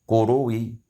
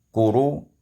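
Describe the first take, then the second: First: The word ends with a faint, brief vowel. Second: The word ends with no vowel at all. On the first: "dan rum" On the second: "ma'a sukun"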